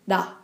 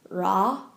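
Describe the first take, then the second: First: The consonant sounds close to a light D. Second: The consonant sounds like an English R. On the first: The speaker calls it right. "but da" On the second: The speaker calls it wrong. "it's not ra"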